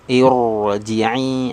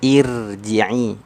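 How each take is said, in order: First: The r is pronounced with rounded lips. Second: The r is pronounced thin and light. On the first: "tidak boleh terlibatkan bibir" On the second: "jangan tipis"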